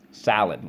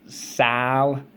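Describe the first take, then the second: First: Said in the usual way. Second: Sal-ad said in two clear beats, a little higher; split in syllables. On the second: Shown as a demonstration. Teacher splitting salad into syllables for the class. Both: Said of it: "Let's go".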